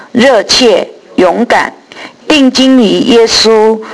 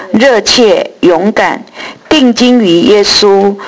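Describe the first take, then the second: The two takes are said the same way.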